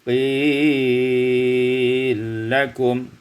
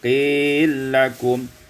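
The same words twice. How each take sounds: First: The long vowel is held very long. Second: The long vowel is held briefly.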